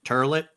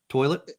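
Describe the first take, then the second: First: The word is said with an R sound, like turlet. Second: The word is said without an R sound. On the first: The speaker calls it wrong. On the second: The speaker calls it right.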